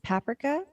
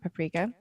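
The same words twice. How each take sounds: First: It is pronounced the way Europeans say it. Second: It is pronounced the other, non-European way. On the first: "as they pronounce it" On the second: "not paprika"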